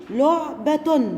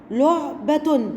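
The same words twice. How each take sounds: First: لعبة drawn out slowly; slow syllable reading. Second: Said in the usual way. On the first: Shown as a demonstration. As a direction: read لعبة slowly for children. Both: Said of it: "تعالوا نشوف ده في كلمات".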